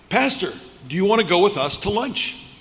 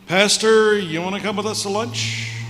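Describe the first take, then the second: First: The invitation sounds sincere and warm. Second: The invitation sounds insincere and half-hearted.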